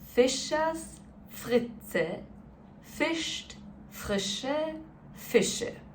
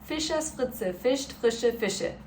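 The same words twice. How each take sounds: First: It is said very slowly. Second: It is said somewhat faster.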